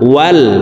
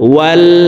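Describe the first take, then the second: Both takes have the same delivery.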